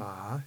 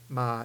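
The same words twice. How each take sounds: First: The pitch rises from low to high. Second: The pitch stays low and level. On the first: "ma is the rising tone" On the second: "ma is the low tone"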